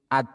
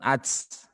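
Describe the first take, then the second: First: The t ends with a light puff of air. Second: The t ends with a hissing ts sound. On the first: The speaker calls it right. "Kalau at, udara yang mengalir" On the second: The speaker calls it wrong. "bukan ats, ... sudah berubah menjadi c"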